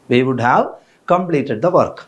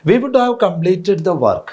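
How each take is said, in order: First: Said in the usual way. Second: Very slow, every word spaced; slow sentence read for students; slow dictation. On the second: Shown as a demonstration. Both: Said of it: "നോക്കുക".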